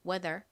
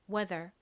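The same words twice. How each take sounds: The two takes are said the same way.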